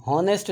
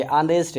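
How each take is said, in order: First: हॉनेस्ट said with a voiced h; हॉनेस्ट with an h at the start; wrong pronunciation. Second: ऑनेस्ट starting on the vowel, silent h; ऑनेस्ट opening straight on the o; correct pronunciation. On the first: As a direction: sound the h in हॉनेस्ट. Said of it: "हॉनेस्ट नहीं है ये". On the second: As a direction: drop the h, say ऑनेस्ट. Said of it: "ऑनेस्ट है". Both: Shown as a demonstration.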